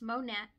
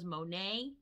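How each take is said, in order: First: The name ends with a 'nat' sound. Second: The name ends with a 'nay' sound. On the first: The speaker calls it right. "but no, it's Monat" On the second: The speaker calls it wrong. "I always thought it was Monet"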